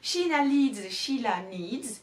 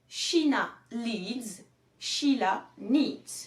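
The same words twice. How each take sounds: First: The phrase is said quickly, repeated in succession. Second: The phrase is said slowly and carefully. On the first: "le plus rapidement possible" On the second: "Je te la donne déjà lentement"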